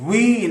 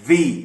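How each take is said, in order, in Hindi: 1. इसकी शुरुआत गोल होंठों से होती है, जैसे we में। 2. इसकी शुरुआत ऊपर के दांत निचले होंठ पर रखकर होती है। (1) "कभी आप वी ना कहें" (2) "आपके ऊपर के दांत निचले होठ को लगते हुए"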